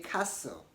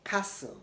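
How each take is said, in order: First: The T in the middle is silent. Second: The same.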